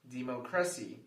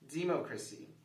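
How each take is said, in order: First: The stress is on the third syllable. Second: The stress is on the first syllable. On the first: "If we stress the third syllable" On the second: "If we're stressing the first syllable"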